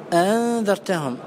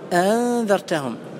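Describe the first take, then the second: Both takes have the same delivery.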